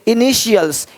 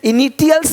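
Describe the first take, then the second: First: The middle consonant is an 'sh' sound. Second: The middle consonant is a 't' sound. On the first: The speaker calls it right. "टी आई ... श पढ़ते हैं" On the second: The speaker calls it wrong. "इनिटियल्स नहीं बोलते"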